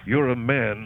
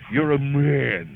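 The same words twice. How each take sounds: First: It is said in a plain, ordinary voice. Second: It is said with strong, forceful emphasis. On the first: The speaker calls it wrong. "we don't just say" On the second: The speaker calls it right. "Why do we say it that way? To emphasize the strength and power"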